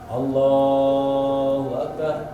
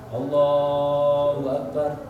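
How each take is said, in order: No difference in how they are said.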